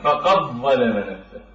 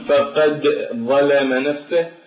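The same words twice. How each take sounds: First: The d merges fully into a doubled next letter. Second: The d is pronounced separately before the next letter. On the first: The speaker calls it right. "فنقلب هذا الحرف إلى ضاء ونثنيه تماما فيقول هكذا" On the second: The speaker calls it wrong. "هنا يكون عائق بالنطق"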